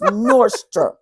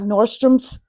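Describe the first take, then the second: First: The name ends without an s sound. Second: The name ends with an added s sound. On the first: The speaker calls it right. "there's no S in that. It's Nordstrom" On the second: The speaker calls it wrong. "not Nordstrom's"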